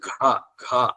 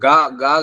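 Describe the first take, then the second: First: The g sound has a strong breath after it. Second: The g sound is plain, without a breath. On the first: The speaker calls it right. "ఇది ఒత్తుగా" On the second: The speaker calls it wrong. "గా గా కాదు"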